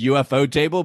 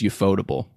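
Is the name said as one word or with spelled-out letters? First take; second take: spelled letters; one word. First: The letters U-F-O are spelled out before table. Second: The name is said as one single word. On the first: "I always read it as UFO table" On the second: "you just pronounce it as a word"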